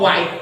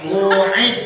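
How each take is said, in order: First: The word begins with a 'wa' sound. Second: The word begins with a plain 'u' sound. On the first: The speaker calls it wrong. "Kok wa'id?" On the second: The speaker calls it right.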